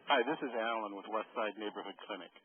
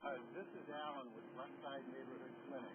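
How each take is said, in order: First: Louder and close to the mic; clear and louder. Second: Faint, distant over a bad line; like a crackly call from far away; weak phone connection. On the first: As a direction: say it clearly so they hear. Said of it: "Yes, much better". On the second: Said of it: "The connection is weak". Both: Real, not acted.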